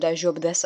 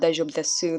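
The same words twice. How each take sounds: First: The final u of desu is silent. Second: The final u of desu is clearly pronounced. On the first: The speaker calls it right. "the U is sort of silent in a way" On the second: The speaker calls it wrong. "It's not daijoubu desu, that please do not say that"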